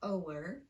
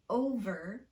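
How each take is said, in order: First: The middle consonant is a W-like sound. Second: The middle consonant is a clear V sound. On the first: The speaker calls it wrong. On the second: The speaker calls it right.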